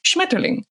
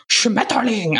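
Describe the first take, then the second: First: "Schmetterling" said lightly and smoothly; "Schmetterling" as a native would, without overpronouncing; natural German pronunciation. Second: "Schmetterling" exaggerated as an ugly German word; "Schmetterling" harshly drawn out, mocking the German; overpronounced. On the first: Shown as a demonstration. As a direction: let "Schmetterling" run quickly, unforced. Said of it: "In Germany, it's Schmetterling". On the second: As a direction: hammer out every syllable of "Schmetterling". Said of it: "Overpronouncing it".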